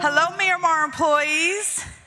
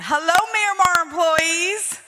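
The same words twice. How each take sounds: First: The greeting sounds flat and low in energy. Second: The greeting sounds lively and high in energy.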